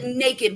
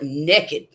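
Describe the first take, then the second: First: It is said in a standard accent. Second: It is said in a Southern US accent.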